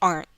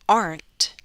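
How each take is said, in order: First: The final T is a glottal stop. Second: The final T is fully released. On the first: "you're going to hear me use a glottal stop" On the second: "Instead of"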